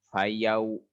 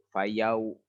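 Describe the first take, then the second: Both takes have the same delivery.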